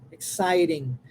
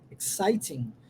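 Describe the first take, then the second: First: The t is pronounced as a quick flap. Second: The t is pronounced as a clear t. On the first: "o T transforma-se em R" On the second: "O inglês britânico vai uh, possivelmente utilizar exciting, exciting, com o som do T como T"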